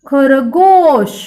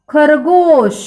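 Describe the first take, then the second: First: खरगोश very slow, the गो stretched; slow model word. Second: खरगोश said clearly with a long गो; model word. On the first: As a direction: draw out खरगोश clearly. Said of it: "शब्द तैयार हो गया". (खरगोश को धीरे, गो लंबा करके बोलो) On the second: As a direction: say खरगोश for children to copy. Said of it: "मेरे पीछे दोहराओ". (दोहराने के लिए खरगोश साफ़ बोलो) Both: Shown as a demonstration.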